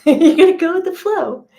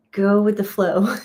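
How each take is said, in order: First: "gonna" pitched much higher and louder through a laugh; laughing high mock announcement. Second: Said in the usual way. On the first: Shown as a demonstration. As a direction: tease the listeners with a high, laughing "You're gonna go with the flow".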